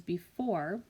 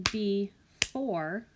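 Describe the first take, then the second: First: Said in the usual way. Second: "before" stretched into two beats, be-fore; split into syllables. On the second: Shown as a demonstration. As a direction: clap out "before" syllable by syllable, drawn out. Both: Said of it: "When I clap that out".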